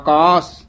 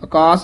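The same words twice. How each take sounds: First: The first vowel is long. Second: The first vowel is short. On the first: The speaker calls it right. "ਕੰਨੇ ਲਾ ਕੇ ਹੀ ਬੋਲਣੇ ਹਨ" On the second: The speaker calls it wrong. "ਆਕਾਸ ਨਹੀਂ ਕਹਿਣਾ"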